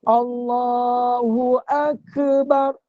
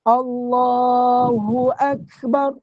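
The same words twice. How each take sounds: First: A short vowel is inserted after the k. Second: The k is released with breath, no vowel. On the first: The speaker calls it wrong. "Dia bukan Allahu Akbar. Ha, kebar. Dia mana ada kebar" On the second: The speaker calls it right. "Alif fathah kaf sukun ak. Kaf tu dia keluar angin"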